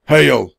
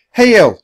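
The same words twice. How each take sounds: First: A hint of a gruff blacksmith, louder; gruff reply. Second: High, loud call. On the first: Blacksmith answers the children, lightly gruff. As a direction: bark back a short greeting. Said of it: "the man said gruffly". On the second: Annie greets someone behind Jack, loud call. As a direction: shout a greeting across the workshop. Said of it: "she called to someone behind Jack". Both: A narrator's reading.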